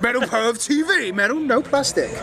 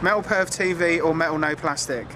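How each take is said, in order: First: It is said with more emphasis. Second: It is said with little emphasis.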